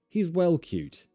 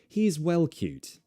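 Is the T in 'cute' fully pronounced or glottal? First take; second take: fully pronounced; fully pronounced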